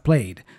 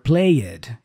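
First: The -ed ending adds no extra syllable. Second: The -ed ending is said as an extra syllable. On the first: The speaker calls it right. "instead of played" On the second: The speaker calls it wrong. "or played"

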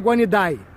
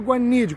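First: The final syllable is fully and clearly pronounced. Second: The final syllable fades away, barely pronounced. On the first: The speaker calls it wrong. "Não é iguanidae" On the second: The speaker calls it right. "é meio iguanide, quase morrendo no final que se pronuncia"

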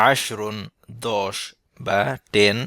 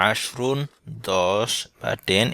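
Both takes have the same delivery.

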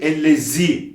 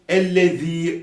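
First: The z is a sharp hissing sound. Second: The z is a soft lisped sound. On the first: The speaker calls it wrong. "Ellezî diyerek geçmiyoruz kesinlikle" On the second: The speaker calls it right. "oradaki z peltek z'dir"

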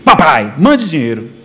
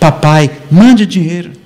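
First: The request sounds blunt and demanding. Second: The request sounds soft and pleading. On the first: The son seems ungrateful and presumptuous. The speaker calls it wrong. "olha como seu filho é ingrato" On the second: The son is asking kindly and humbly. The speaker calls it right. "não foi assim que ele disse"

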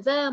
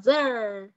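First: The vowel is said without a curled tongue. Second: The vowel is said with the tongue curled up. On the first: The speaker calls it wrong. "không phải là zer" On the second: The speaker calls it right. "Cong lưỡi lên một xíu. ... mà là zer"

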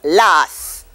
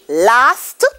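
First: The final t sound is dropped. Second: The final t sound is pronounced.

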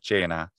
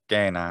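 First: It begins with a ch sound. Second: It begins with a hard k sound. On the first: This follows the ecclesiastical Italian-style pronunciation. "instead of" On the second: This follows the reconstructed classical pronunciation. "anyone using that pronunciation system saying"

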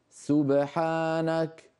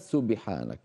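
First: The echoed b has no i vowel. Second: The echoed b leans toward an i vowel. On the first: The speaker calls it right. "سبحانك وليس سبحانك" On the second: The speaker calls it wrong. "وليس سبحانك"

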